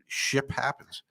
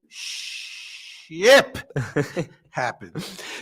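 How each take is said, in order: First: The final P of ship is faint. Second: The final P of ship is clear.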